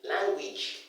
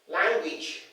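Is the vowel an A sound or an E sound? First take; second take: E sound; E sound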